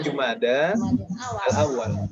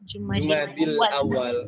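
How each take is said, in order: First: The first word ends in 'da' before al-awal. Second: The first word ends in 'dil', linked to awal. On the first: The speaker calls it right. "Jadi Jumada al-awal" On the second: The speaker calls it wrong. "Biasanya orang membacanya Jumadi, ... itu salah"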